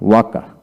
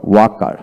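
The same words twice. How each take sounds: The two takes are said the same way.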